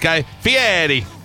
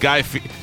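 First: The name is said with added flair. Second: The name is said plainly, without added flair. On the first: The speaker calls it right. "You have to kind of add that little flavor into it now" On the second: The speaker calls it wrong. "Am I saying it right?"

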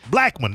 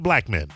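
First: It sounds like one word, a surname. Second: It sounds like two words, black men. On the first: It is the man's surname. The speaker calls it right. "that's his name" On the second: The speaker calls it wrong. "not Blackman"

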